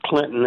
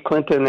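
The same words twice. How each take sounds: First: The middle T is swallowed, not clearly pronounced. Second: The middle T is clearly pronounced. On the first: "I grew up with Clinton" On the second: "his emphasis on the T"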